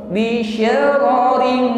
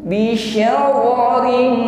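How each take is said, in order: Both takes have the same delivery.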